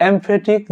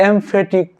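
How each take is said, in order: The two takes are said the same way.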